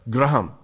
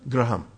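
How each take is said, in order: First: The name is said with an Indian accent. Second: The name is said with an Indian accent.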